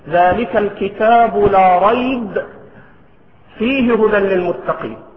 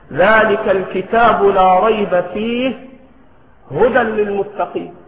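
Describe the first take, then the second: First: There is a pause right after rayb. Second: There is a pause right after fihi. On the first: "فيصح أن تقف على ريب" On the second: "ويصح الوقف على فيه"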